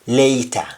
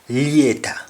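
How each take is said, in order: First: It is said in a standard English accent. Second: It is said in a Jamaican accent. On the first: "In, ja in ja English, it is later" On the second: "In Jamaican accent, we say later"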